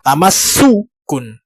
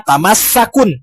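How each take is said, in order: First: The vowel after the doubled s is u. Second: The vowel after the doubled s is a. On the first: The speaker calls it right. "Maka yang masdarnya adalah tamassukun" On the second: The speaker calls it wrong. "Jangan membaca tamassakun"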